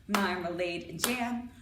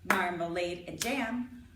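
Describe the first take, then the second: The two takes are said the same way.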